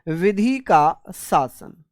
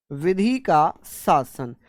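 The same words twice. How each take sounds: The two takes are said the same way.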